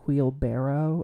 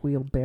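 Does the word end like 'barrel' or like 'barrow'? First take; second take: barrow; barrel. First: The word ends with the sound 'barrow'. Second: The word ends with the sound 'barrel'. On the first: The speaker calls it right. "it was wheelbarrow" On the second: The speaker calls it wrong. "and not wheelbarrow"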